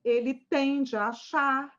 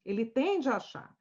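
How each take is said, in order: First: Drawn-out ele tende a achar, leaning on achar; slow stress on achar. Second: Ele tende a achar with tende punched, falling at the end; stress on tende. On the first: Professor repeating the client's belief, slowly. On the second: Professor to students, stressing the word tende. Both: Shown as a demonstration.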